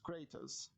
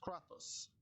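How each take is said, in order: First: The name is pronounced the English way. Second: The name is pronounced the Greek way. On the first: "If you're if you you are reading in English, it is Kratos" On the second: "if you are reading in the Greek language, ... it is Kratos"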